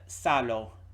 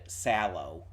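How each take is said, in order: First: It is said with an Italian-sounding accent. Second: It is said like a plain English word. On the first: The speaker calls it right. "Salo sounds pretty correct to me" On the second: The speaker calls it wrong. "it's definitely not just said sallow"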